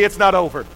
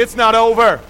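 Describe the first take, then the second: First: Said in the usual way. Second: "It's not over." said louder, preached out; "It's not over." with fervor; with a little preach. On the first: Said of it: "Turn to somebody and say". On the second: Shown as a demonstration. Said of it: "say it with a little preach behind it".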